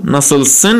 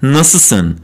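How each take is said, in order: First: ناسلسن with the L said clearly, nasilsen; careful written-form pronunciation; spelled-out form. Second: ناسلسن said nasusen with no L; casual Istanbul speech form; spoken form, L dropped. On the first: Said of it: "که توی گفتار میگیم ناسلسن". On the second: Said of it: "ل رو نمیگیم". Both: Shown as a demonstration.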